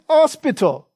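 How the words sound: It is said in a Cockney accent. "has a Cockney accent"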